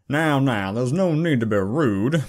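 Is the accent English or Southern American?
Southern American. It is said in a Southern American accent.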